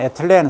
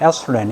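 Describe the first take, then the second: First: The word is said the Korean way, with a 't'. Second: The word is said the English way, with 'th'. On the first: "우리 발음은 에틸렌" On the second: "영어로는 에슬렌 이렇게 발음합니다"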